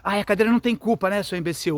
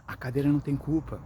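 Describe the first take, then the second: First: Higher, louder, fast mocking scold; harsh scolding. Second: Gently explaining the chair isn't to blame; calm and tender. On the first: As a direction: snap at the child with contempt. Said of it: "não pode fazer assim". (bronca irritada e debochada, mais alta e aguda) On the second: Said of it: "falar com calma, com carinho". (com calma, explicando com carinho) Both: Shown as a demonstration.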